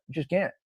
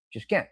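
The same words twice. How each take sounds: First: Quietly, "can't" rising; soft aside. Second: Softer still, "can't" rising; soft echo. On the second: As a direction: repeat it under your breath. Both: Shown as a demonstration.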